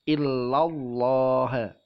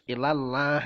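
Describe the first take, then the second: First: The L in Allah sounds heavy and thick. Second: The L in Allah sounds light and thin. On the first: The speaker calls it right. "harus dibaca tebal" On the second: The speaker calls it wrong. "nggak boleh dibaca tipis"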